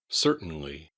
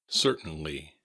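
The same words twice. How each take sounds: The two takes are said the same way.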